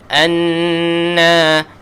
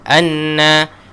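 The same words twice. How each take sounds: First: The nasal n is held long. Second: The nasal n is cut short. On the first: The speaker calls it right. "anna dua harakat" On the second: The speaker calls it wrong. "jangan anna"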